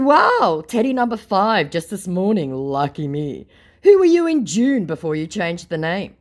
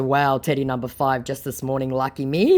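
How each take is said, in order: First: Higher, louder mock amazement; sarcastic wow. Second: Said in the usual way. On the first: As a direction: feign being impressed, sarcastically. Sarcastic greeting to another fake Teddy.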